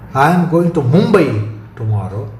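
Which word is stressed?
Mumbai. The word "Mumbai" carries the stress. No other destination is meant. "Stress on Mumbai rules out any other destination"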